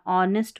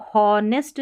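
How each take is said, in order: First: ऑनेस्ट opening on the "o" vowel, no h; silent H. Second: हॉनेस्ट with an audible h at the front; H wrongly pronounced. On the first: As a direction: start ऑनेस्ट directly on the vowel. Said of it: "ऑनेस्ट पढ़ना". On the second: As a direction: sound the h in हॉनेस्ट as a mistake. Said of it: "इसको हॉनेस्ट नहीं पढ़ना". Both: Shown as a demonstration.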